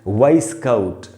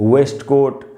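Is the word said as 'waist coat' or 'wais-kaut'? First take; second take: wais-kaut; waist coat. First: It is said like 'wais-kaut' without the t. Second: It is said like 'waist coat' with a full t. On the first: The speaker calls it right. "इसका सही उच्चारण ये रहा दोस्तों वाइस काउट" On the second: The speaker calls it wrong. "इसको अक्सर लोग वेस्ट कोट"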